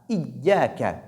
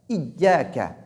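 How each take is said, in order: Both takes have the same delivery.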